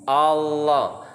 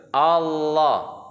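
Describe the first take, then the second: Both takes have the same delivery.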